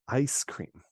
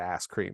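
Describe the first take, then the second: First: The vowel in 'ice' glides, like 'eye'. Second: The vowel in 'ice' is flattened, like 'ass'.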